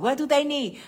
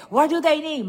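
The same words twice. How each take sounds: First: Loud, high, pressing question; insisting. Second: Even louder and higher, pushier repeat; louder insisting. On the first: Grandmother pressing her daughter about the gift list, loud. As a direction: push her for an answer. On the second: Grandmother repeating the gift question more forcefully, louder. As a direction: push harder, nearly shouting. Grandma pressing daughter for gifts. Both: Retold or imitated.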